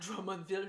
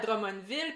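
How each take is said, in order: First: The name is said with an English accent. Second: The name is said with a French accent.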